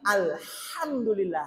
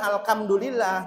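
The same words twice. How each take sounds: First: The h is made deep in the throat. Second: The h is a light, plain breath sound. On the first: The speaker calls it right. "tapi alhamdulillah. Hak. Jadi hak ini berada dari tengah" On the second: The speaker calls it wrong. "Harusnya bukan alhamdulillah"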